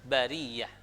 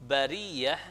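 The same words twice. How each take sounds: Both takes have the same delivery.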